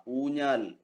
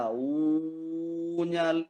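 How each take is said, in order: First: Said in the usual way. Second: ഊഞ്ഞാൽ with the opening oo held very long; overlong vowel. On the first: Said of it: "എന്നൊക്കെ പറയുമ്പോ". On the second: Shown as a demonstration. Teacher showing an unusual long vowel, ഊഞ്ഞാൽ with overstretched oo. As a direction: drag out the first vowel of ഊഞ്ഞാൽ, oooo-njaal. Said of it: "എന്ന് പറയാറില്ല".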